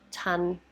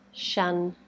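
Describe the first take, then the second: First: The word begins with a t sound. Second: The word begins with a sh sound. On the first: "stop the air to make a t" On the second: "make a sh sound"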